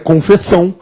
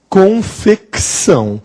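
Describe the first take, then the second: First: No K sound is heard before the S. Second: A K sound is heard before the S. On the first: The speaker calls it wrong. "se ele fosse mudo, seria confessão" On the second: The speaker calls it right. "Este C, ele é sonoro"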